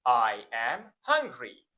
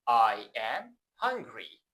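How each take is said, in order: The two takes are said the same way.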